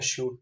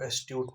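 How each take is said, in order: First: The middle of the word sounds like 'sh'. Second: The middle of the word sounds like 'st'. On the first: The speaker calls it right. "एश्यूट पढ़ना है" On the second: The speaker calls it wrong. "इसको एस्ट्यूट नहीं पढ़ना है"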